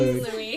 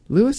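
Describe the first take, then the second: First: The name ends with a silent S. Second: The name ends with a sounded S. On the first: The speaker calls it right. "So silent S" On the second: The speaker calls it wrong. "I don't think his name is Lewis"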